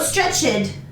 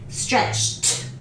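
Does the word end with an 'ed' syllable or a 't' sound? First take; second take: ed; t. First: The ending is said as an extra 'ed' syllable. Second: The ending is said as a short 't' sound. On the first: The speaker calls it wrong. "no stretched" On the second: The speaker calls it right. "Pronunciation T"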